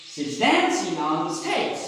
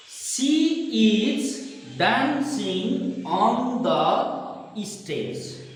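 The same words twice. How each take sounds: First: "dancing" and "stage" stressed, small words slipped over; content-word stress. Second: Very slow, each word given full weight; every word spelled out. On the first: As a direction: lean on "dancing" and "stage", skim the rest. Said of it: "Dancing and stage are content words". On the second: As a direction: say every word separately and fully. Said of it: "We are habituated with this". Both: Shown as a demonstration.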